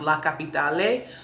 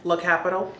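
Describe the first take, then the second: First: It is said the Italian way. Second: It is said the American way.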